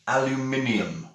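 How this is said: It is said in a British accent. "The same as we pronounce"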